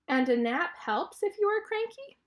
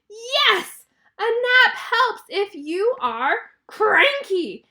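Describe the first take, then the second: First: "And a nap helps if you are cranky?" higher, rising to the end; clarifying question. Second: Loud, high, slow exasperated yell; frustrated yell. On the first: Piggy checks with her friend, "cranky" lifted as a question. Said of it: "really good clarifying question". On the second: Elephant snaps at Piggy for interrupting his sleep, frustrated yell. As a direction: yell it word by word, drawing out the last one. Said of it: "and he yells". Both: Acted.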